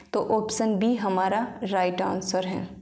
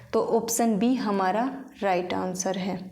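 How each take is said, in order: Both takes have the same delivery.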